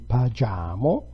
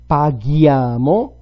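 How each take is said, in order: First: The consonant before 'iamo' is a soft 'j' sound. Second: The consonant before 'iamo' is a hard 'g' sound. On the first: The speaker calls it wrong. "without the H it would be pagiamo" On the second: The speaker calls it right. "G and K have the same kind of behavior"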